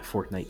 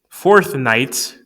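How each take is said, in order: First: It is said quickly, running together like one word. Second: It is said slowly, as two separate words. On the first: The speaker calls it wrong. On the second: The speaker calls it right.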